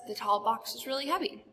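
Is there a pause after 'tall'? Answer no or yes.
no. There is no pause between tall and box. The speaker calls it right. "It's just"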